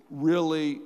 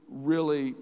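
No difference in how they are said.

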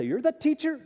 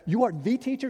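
First: Said in the usual way. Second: "are" in "You are the teacher" pulled apart and stressed, pitch up; emphatic are. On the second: Shown as a demonstration. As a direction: spell out "You are" and hit "are" hard. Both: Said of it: "literally emphatic".

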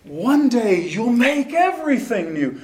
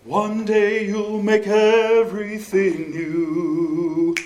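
First: Everything spoken high and pushed; spoken with life. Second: Everything drawn out slowly at the peak; slow it down and lean on everything; slow stress on everything. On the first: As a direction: lift the line up to everything. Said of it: "speak the text and really give it life". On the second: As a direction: stretch the line to the high point. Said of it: "Everything is the high". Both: Shown as a demonstration.

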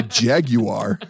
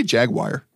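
First: Jaguar in three parts, JAG-you-ar; slow, careful "jaguar" as jag-you-ar; British pronunciation. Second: Jaguar said as JAG-wire; quick "jaguar" as jag-wire; own mispronunciation. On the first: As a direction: draw out "jaguar", ending in ar. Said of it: "They say". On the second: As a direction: end "jaguar" like the word wire. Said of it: "I say". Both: Shown as a demonstration.

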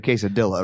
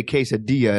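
First: Quesadilla said kay-sa-DILL-a; anglicized mispronunciation. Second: Quesadilla said kay-sa-DEE-ya; Spanish pronunciation. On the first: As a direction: sound out the L's in quesadilla. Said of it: "instead of quesadilla". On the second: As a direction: say quesadilla with a silent double L, as a Y. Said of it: "you do say". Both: Shown as a demonstration.

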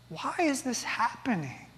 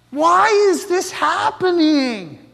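First: Much softer, almost to himself; hushed, broken question. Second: Slow, pleading, raised cry of someone in pain; anguished cry. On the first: Real, not acted. Preacher asking congregation the same question, hushed and heavy. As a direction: let the question sink low and heavy. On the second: Retold or imitated. Woman in pain asking God why, anguished slow plea. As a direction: ask it like a woman clutching her aching head.

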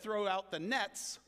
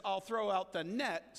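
First: "nets" leaned on, slow and clear; stress on plural nets. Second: "net" leaned on, slow and clear; I'll throw out the "net", slow, marking singular; stress on singular net. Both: Shown as a demonstration.

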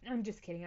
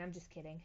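First: Said in the usual way. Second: Much softer, half under the breath; quiet. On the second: Shown as a demonstration. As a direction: drop to a quiet aside. Softer repeat of retraction.

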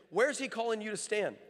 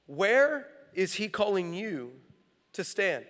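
First: Said in the usual way. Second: "Where" stretched long, then slow, measured words; slow emphatic question. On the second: Real, not acted. Preacher repeating his key question to the congregation, slow and emphatic. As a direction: draw out "Where", pause before "to stand".

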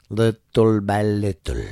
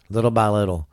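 First: Slow, weighted repeat; slow emphatic repeat. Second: Said in the usual way. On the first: Acted. Host warning listeners, slow and emphatic. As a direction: drag each word to drive it home.

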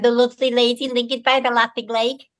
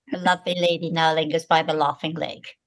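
First: Liverpool accent demo, pitched as in everyday talk; strong Liverpool accent. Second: Lower-pitched, corrected English accent without Liverpool sounds; Liverpool accent removed. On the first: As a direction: say it in broad Liverpool speech. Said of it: "I had a very strong Liverpool accent". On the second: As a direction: demonstrate the trained accent that replaced Liverpool. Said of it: "getting rid of the accent". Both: Shown as a demonstration.

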